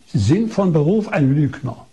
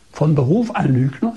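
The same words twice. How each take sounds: First: "von Beruf ein Lügner" as a firm statement; retold accusation. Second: "von Beruf ein Lügner" as a rising question; retold incredulous echo. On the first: Doctor telling priest his profession, "Lügner" stated as accusation. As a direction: state "Lügner" as a settled verdict, no questioning lift. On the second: Priest echoing doctor's insult, "Lügner" rising in disbelief. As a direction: lift the tune on "Lügner", questioning it.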